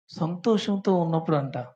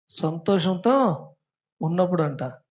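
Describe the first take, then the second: First: Said in the usual way. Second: సంతోషంతో drawn out slowly and louder, each syllable spelled out; slow and deliberate. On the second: Shown as a demonstration. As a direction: repeat it slowly so the class catches it. (నెమ్మదిగా, ఒత్తి పలకడం)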